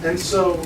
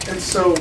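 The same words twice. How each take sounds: The two takes are said the same way.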